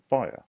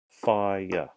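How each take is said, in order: First: The word is said quickly, as one beat. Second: The word is said slowly, in two beats. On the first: "it sounds like it might just be one" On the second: "let's say it slowly"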